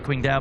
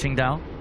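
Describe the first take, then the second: First: The name is read the way it looks spelt. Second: The name is said differently from its spelling. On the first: The speaker calls it wrong. "I say Qingdao, I say it how it's spelt" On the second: The speaker calls it right. "but I think it's Qingdao"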